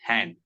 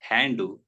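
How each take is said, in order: First: The word ends cleanly on the final consonant. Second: An extra vowel is added after the final consonant. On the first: The speaker calls it right. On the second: The speaker calls it wrong.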